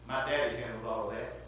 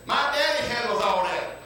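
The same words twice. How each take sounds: First: Much lower and softer, calmly certain; hushed calm answer. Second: Ringing out the line to the congregation; proclaimed punchline. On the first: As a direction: drop right down and say it quietly. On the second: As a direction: declare it with preacher's fire. Preacher proclaims the story's punchline. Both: Acted.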